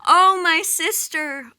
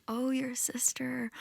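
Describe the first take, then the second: First: High, loud grief-stricken wail, drawn out; wailing cry. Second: Soft high whisper, a gentle echo back. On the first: Goddess in the underworld wailing for her husband, loud keening wail. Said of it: "she's crying out". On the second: Bird creatures echoing the goddess's grief, soft whispered echo. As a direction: hush it back to her as a witness. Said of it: "And they say". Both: Acted.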